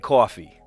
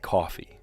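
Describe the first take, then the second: First: It is said in an East Coast accent. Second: It is said in a general American accent. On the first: This is how a relative on the East Coast says it. "I do not say coffee" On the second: This is how the speaker says it. "I just say coffee. Right? It's just normal"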